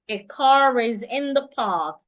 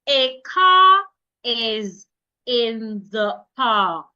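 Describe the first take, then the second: First: The words 'car' and 'is' run together. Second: The words 'car' and 'is' are said apart. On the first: "will be said together like one word" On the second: "Instead of"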